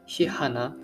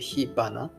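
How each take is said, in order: First: The second part starts with an h sound. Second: The second part starts with a b sound. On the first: The speaker calls it wrong. "hihana sounds really wrong" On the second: The speaker calls it right. "so that it sounds a bit more natural"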